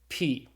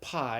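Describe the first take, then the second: First: The vowel sounds like English 'pee'. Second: The vowel sounds like English 'pie'. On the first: This is the proper Greek way of saying the letter. The speaker calls it right. "this letter is properly pronounced P, just like the English P" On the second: This is the math way of saying the letter. The speaker calls it wrong. "if you've learned math, you called it pi"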